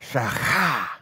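The middle consonant is a throaty, rasping sound.

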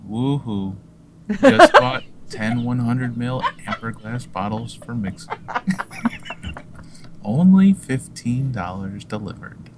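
It is read in a flat, laid-back way.

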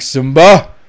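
It is said seriously, with strong emotion.

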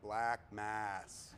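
Jason Lee's reading with long drawn-out A vowels.

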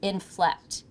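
The word stays within a low pitch. The speaker calls it right. "It is still keeping within that lower tone"

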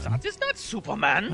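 It is said in a put-on German accent.

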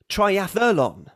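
The word has an American pronunciation. The speaker calls it wrong. "the second version is American"

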